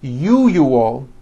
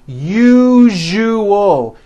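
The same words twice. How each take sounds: First: The middle consonant is not a voiced zh. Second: The middle consonant is a voiced zh sound. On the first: The speaker calls it wrong. "If you are someone that pronounces the word usual as usual" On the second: The speaker calls it right. "Let me show you how to pronounce the word usual correctly"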